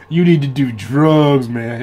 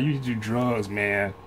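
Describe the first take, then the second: First: Slow, louder, higher mock dude voice pushing drugs; imitating his friend. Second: Said in the usual way. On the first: Retelling a friend's drug advice, in a mock dude voice. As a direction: drawl it out like the friend who swore by drugs. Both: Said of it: "he was talk like that".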